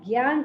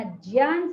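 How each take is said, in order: First: ज्ञान with a g-y onset, "gyaan"; wrong gyan form. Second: ज्ञान with a j-y onset, "jyaan"; wrong jyan form. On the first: Teacher rules out the second error, ज्ञान as "gyaan". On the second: Teacher rules out the first error, ज्ञान as "jyaan". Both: Shown as a demonstration. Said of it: "ना ज्ञान सही है".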